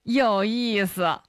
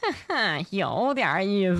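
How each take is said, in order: First: It is said in a plain, neutral tone. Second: It is said in a sly, villain-like tone.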